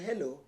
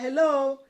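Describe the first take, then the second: First: It is said plainly, in a normal voice. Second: It is said warmly, in a polite voice.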